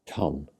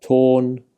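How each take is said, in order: First: Ton with a short, low, soft "o"; short vowel. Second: Tôn with a long, level "oh"; long vowel. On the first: Teacher contrasting similar words, Ton said with short vowel. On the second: Teacher contrasting similar words, Tôn said with long vowel. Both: Shown as a demonstration. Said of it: "sound quite different".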